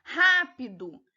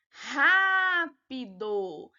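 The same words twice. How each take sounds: First: Said in the usual way. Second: "rápido" very slowly, with RÁ held long; drawn-out stressed syllable. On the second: Shown as a demonstration. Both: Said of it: "a sílaba tônica".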